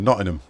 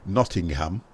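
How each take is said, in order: First: The H is dropped, as in Nottingham speech. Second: The H of the last syllable is pronounced.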